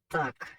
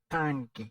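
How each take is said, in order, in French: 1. Il se prononce avec des sons du créole haïtien. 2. Il se prononce avec des sons espagnols. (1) "en pile haïtien, toujours mal prononcé, yo dit tank" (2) "c'est pas tank, c'est tank"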